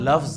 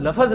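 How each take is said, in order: First: No vowel is heard between f and z. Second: A short vowel is heard between f and z. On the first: This is the original Arabic way of saying it. The speaker calls it right. "इंसान लफ्ज है" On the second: This is the everyday Urdu way of saying it. The speaker calls it wrong. "इंसान लफज नहीं है"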